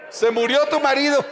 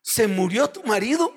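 First: "Se murió tu marido" said with laughing, heavy mock emphasis on "tu"; added emphasis. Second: Said in the usual way. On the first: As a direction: lean hard on "tu", half laughing. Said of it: "estoy haciendo énfasis añadido". (énfasis exagerado en "tu", entre risas) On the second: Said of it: "no le dije así".

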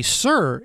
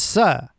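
First: Said in the usual way. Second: "sir" said as "suh" with the R dropped; film accent, no R. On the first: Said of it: "But if they say sir". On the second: Shown as a demonstration. Explaining the film's accent, "sir" with no final R. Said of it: "it's sir".

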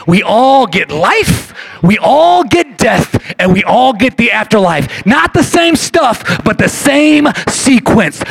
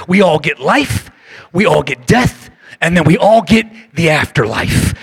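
First: We all get life, we all get death, each word slowed and punched louder; slow emphatic repeat. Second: Said in the usual way. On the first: Shown as a demonstration. Preacher repeating the key line to the church, slow and emphatic. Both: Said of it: "I'll say it again".

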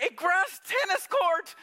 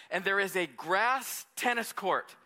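First: High, slow, astonished "A grass tennis court."; amazed. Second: Said in the usual way. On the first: Real, not acted. Pastor reliving the estate tour for the congregation, amazed. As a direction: marvel at "tennis court" as if still unbelieving.

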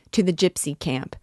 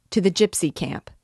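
First: Shouting. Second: Rallying shout. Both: A narrator's reading.

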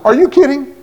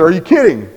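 First: Higher, incredulous Are you kidding?; stunned disbelief. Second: Said in the usual way. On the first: Retold or imitated. Preacher told to quit teaching Sunday school, incredulous. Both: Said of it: "I really did".

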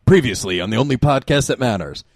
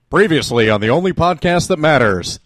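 First: Said in the usual way. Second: A hint of a TV announcer. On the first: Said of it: "that's a good cold opening". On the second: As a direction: read it like a show intro. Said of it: "in your best announcer voice".

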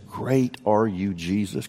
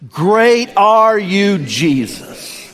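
First: Said in the usual way. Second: Loud, slow, drawn-out praise; congregation shout. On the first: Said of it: "can we just say that". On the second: Real, not acted. Pastor and church shouting praise together, loud and slow. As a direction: call it out together, stretched and strong. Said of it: "on the count of three".

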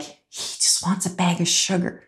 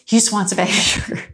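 First: Hushed, softer muttered aside; quiet aside. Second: Repeated with a laugh breaking through; half-laughing at the bribe. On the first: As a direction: say it under your breath, knowingly. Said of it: "And I remember saying to her, like". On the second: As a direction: say it again, chuckling at the absurdity. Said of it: "You know, like, just". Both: Retold or imitated.

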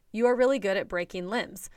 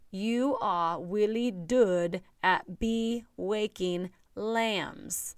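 First: Said in the usual way. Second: Put-on very slow little-kid voice, "be waking lambs" with w for r; child's mispronunciation. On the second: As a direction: toddler saying "be waking lambs" instead of breaking limbs. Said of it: "that's how he said it".

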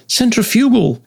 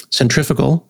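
First: "Centrifugal" as sen-tri-FEW-gul, pitched high; corrected centrifugal. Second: "centrifugal" as sen-TRIF-i-gul; American centrifugal. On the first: Retold or imitated. Imagined listener corrects the speaker, high "Centrifugal" stressed on FEW. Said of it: "you can be like". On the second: Shown as a demonstration. Speaker tests own pronunciation on the system, "centrifugal" stressed on TRIF. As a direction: stress TRIF in "centrifugal", short vowel after it. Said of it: "I can say centrifugal".

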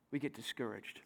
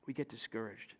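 First: Plain. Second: A low murmured echo of the line; softer, lower repeat. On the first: Drops voice on discouraged. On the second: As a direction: drop the voice right down on "We get discouraged". Repeats it, drawn out. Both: Acted.

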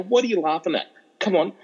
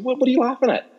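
First: Higher-pitched, mildly indignant protest; a little upset. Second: Much higher, startled retold question; taken aback. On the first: Retold or imitated. Retelling his protest to mates who kept laughing, a little upset. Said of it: "getting actually a little upset". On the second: Retelling his question to laughing mates, taken aback. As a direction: ask it thrown off balance, voice jumping up. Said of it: "I was taken aback".

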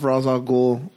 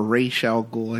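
First: "Ra's" said RAHZ, rhyming with Oz; "Ra's" with an open ah and final z; Ra's as Roz. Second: "Ra's" said RAYSH, with a long ay and sh; slow, careful "Ra's" as raysh. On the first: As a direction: pronounce "Ra's al Ghul" as rahz al GOOL. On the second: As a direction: pronounce "Ra's al Ghul" slowly as raysh al GOOL. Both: Shown as a demonstration. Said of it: "somebody's gonna say something".

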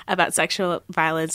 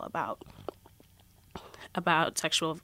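First: Said in the usual way. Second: Choked up, struggling to speak. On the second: Real, not acted. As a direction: voice catching with emotion. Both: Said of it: "I get, like, really choked up".

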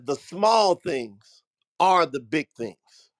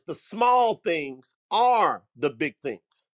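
First: Slow, weighty delivery with "small" leaned on; drawn-out, deliberate motto with stress on "small"; slow emphatic. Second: Slow, deliberate restatement with "small" stressed; slow emphatic repeat. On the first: Retold or imitated. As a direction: lay the lesson down word by word. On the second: Shown as a demonstration. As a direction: hammer the motto home slowly. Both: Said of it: "Y'all put that in the comments".

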